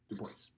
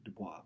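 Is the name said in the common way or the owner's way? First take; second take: owner's; common. First: The name is pronounced the way its bearer said it. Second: The name is pronounced the commonly used way. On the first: This is how the man himself said his name. The speaker calls it right. "That's actually how he pronounced his own name" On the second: This is how people usually say the name. The speaker calls it wrong. "We would normally pronounce it Dubois"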